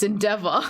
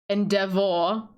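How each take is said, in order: First: The ending is a soft 'ah' sound. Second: The ending is a clear 'or' sound. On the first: This is how Australians say it. "as an Australian ... It's endeavor" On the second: This is how others say it. "we don't pronounce it endeavor"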